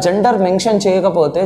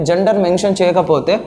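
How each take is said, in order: Both takes have the same delivery.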